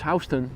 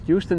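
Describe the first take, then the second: First: The first syllable sounds like the word 'house'. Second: The first syllable does not sound like 'house'. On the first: The speaker calls it right. "it's Houston ... It's where house music originated" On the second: The speaker calls it wrong. "You're saying it wrong. It's not Houston"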